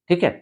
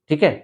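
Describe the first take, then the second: Both takes have the same delivery.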